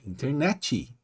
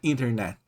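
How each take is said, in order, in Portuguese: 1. Um som de vogal 'ee' vem depois do t final. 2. Termina limpo, no som do t final. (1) "é internet. Então tem esse som de i no final" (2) "não é internet"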